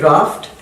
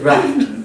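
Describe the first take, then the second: First: It is said in a British accent. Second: It is said in an American accent. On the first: "British would say draft" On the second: "Americans would say draft"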